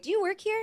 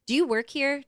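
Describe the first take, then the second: First: Much higher, sing-song question; sweetly pitched way up, testing him; mock innocent question. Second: Checking if he's staff, voice raised; pointed question. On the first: To the man at the table, a high mock-sweet question. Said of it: "volume. Am I gonna turn it up or down?". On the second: Retold or imitated. To the stranger at the table, a raised pointed question. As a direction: ask it sharp and suspicious, pitched up. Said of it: "Just in case our attitude, you know, volume".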